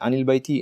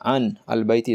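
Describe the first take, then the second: First: The first word runs into the article with an i. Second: The article's alif is sounded as a separate syllable.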